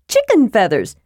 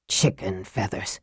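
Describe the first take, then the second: First: Higher, eager kender voice on "Chicken feathers"; excited Tass. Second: Very low, hushed "Chicken feathers"; scathing mutter. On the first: Acted. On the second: A narrator's reading. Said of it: "he muttered scathingly".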